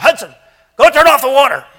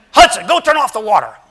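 First: Put-on high, loud bossy little boy; bossy child shout. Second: Put-on high loud child giving orders; bossy little brother. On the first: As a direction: yell it like a bossy kid. Child bossing older brother. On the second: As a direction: boss him around like a kid. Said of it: "he always speaks to the older brother this way".

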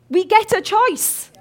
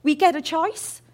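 First: Slow, louder, higher, weight on get; preacher pressing the point, slow and loud; emphatic slow repeat. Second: Said in the usual way. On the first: Shown as a demonstration. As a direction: drive home We get a choice.

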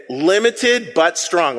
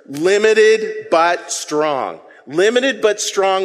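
First: Slow, measured phrase; slow and deliberate. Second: Said slowly with the crowd; drawn out, deliberate; slow call and response. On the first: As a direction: say each word slowly. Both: Shown as a demonstration. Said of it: "Let's say those three words".

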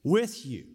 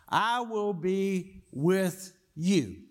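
First: Said in the usual way. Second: "I will be with you" spelled out slowly, leaning on "I"; slow emphatic promise. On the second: Shown as a demonstration. Preacher to congregation, slow emphatic promise. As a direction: stretch "I will be with you" into a slow, weighted pledge. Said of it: "What he does tell us is that I will be what?".

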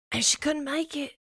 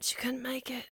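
First: Said in the usual way. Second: "couldn't" said softly, voice dropping away; dropped to a hush. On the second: Acted. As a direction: let "couldn't make it" fade out sadly. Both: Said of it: "repeated for effect".

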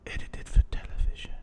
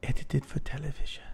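First: Hushed, dark European-accented whisper. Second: Softer, darker accented read; darker retry. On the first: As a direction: breathe the line darkly. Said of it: "you said it so dark". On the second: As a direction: push the dark menace more. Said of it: "so let me try this again". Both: Shown as a demonstration.

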